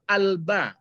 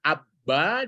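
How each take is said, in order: First: The L sound is clearly heard before B. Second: The L merges into a doubled B sound. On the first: The speaker calls it right. "kan lepas dia alba berarti ba itu huruf bulan" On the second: The speaker calls it wrong. "dibaca abba"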